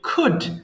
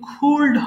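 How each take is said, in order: First: No L sound is pronounced before the D. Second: An L sound is pronounced before the D. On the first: The speaker calls it right. "এটা খুড হবে" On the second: The speaker calls it wrong. "এটা কিন্তু খুল্ড হবে না"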